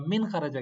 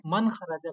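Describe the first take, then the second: First: मिन said with a short clear i; teacher models मिन खराजा with a crisp i; correct vowel min. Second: मन said with an open a, as the student misread it; teacher mimics मन खराजा, stressing the wrong a; wrong vowel man. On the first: Teacher correcting the student, pronouncing मिन with i. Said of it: "मिन खराजा क्यों नहीं कहा". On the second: Teacher mimicking the student's misreading, pronouncing मन with a. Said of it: "मन खराजा क्यों कहा". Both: Shown as a demonstration.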